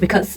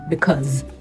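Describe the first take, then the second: First: The s is not a z sound. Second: The s is a z sound. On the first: The speaker calls it wrong. "you don't say" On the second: The speaker calls it right.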